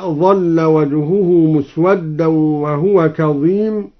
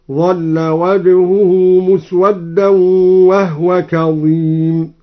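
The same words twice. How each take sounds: First: Said in the usual way. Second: Slow chant with وهو said "wahwa", no vowel on the h; vowelless ha. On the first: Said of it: "قوله تعالى". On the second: Shown as a demonstration. Teacher showing al-Duri's reading, وهو chanted as "wahwa" with silent-vowel ha. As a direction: stretch the tartil and close وهو to "wah-wa". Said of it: "أسكن الهاء هكذا".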